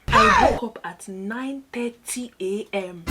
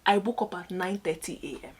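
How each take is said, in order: First: Slow and higher, NINE THIRTY A M drawn out; emphatic repeat. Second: Said in the usual way. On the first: Real, not acted. Telling viewers she overslept for orientation, slow emphatic repeat. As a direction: spell out NINE THIRTY A M in loud, slow disbelief.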